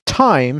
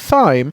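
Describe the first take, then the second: First: The word begins with a plain t sound. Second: The word begins with a th sound. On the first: "pronounce time sans H" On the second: "actually do pronounce it like thyme"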